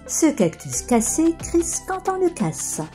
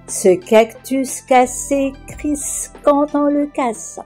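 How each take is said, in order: First: The sentence is said at a faster pace. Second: The sentence is said at a slower pace.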